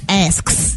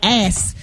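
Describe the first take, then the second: First: The k sound is fully pronounced in the word. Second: The k sound is dropped from the word. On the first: The speaker calls it right. "but it's it's asks" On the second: The speaker calls it wrong. "when we talk fast, it, it's hard to say asks. You know, we be like ass"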